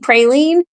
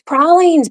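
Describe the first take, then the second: First: It is pronounced in a Midwestern way. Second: It is pronounced in a non-Midwestern way. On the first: The speaker calls it wrong. "you can't say praline, that's Midwestern" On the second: The speaker calls it right. "It's pralines"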